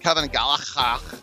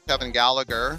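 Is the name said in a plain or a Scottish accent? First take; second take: Scottish; plain. First: The name is said in a Scottish accent. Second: The name is said in a plain accent.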